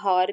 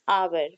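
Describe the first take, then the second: First: It starts with an h and a long vowel. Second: It starts directly with a vowel, no h. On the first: The speaker calls it wrong. "इसको हावर भी नहीं बोलेंगे" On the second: The speaker calls it right. "This pronunciation is आवर"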